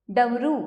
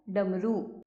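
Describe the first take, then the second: First: डमरू with its first ड mispronounced; डमरू with an altered d; wrong ड sound. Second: Said in the usual way. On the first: Shown as a demonstration. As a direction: get the opening ड of डमरू wrong. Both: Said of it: "ढ़ की अशुद्धियाँ".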